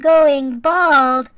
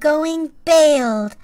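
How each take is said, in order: First: The vowel in 'bald' sounds like 'ball'. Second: The vowel in 'bald' sounds like 'bale'. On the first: "in Canada, we don't say" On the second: "We say that I'm going bailed"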